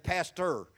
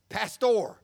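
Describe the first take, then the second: First: It is said with an American accent. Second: It is said with a Spanish accent.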